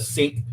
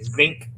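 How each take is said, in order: First: Said in the usual way. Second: "zinc" with a buzzing z at the start; "zinc" as the old Southern way of saying sink; Southern dialect pronunciation. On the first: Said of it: "instead of sink". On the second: Shown as a demonstration. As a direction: voice the first sound of "zinc" as z, not s. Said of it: "I used to say zinc instead of sink".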